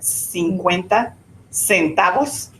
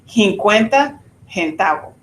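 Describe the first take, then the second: First: The S sounds are clearly pronounced. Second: The S sounds are dropped or breathy. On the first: "that cincuenta centavos" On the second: "she did not pronounce the S's"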